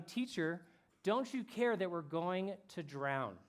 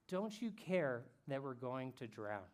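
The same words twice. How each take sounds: First: Mild retold shout. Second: Said in the usual way. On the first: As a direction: imitate a desperate shout without full volume. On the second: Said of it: "They say to him".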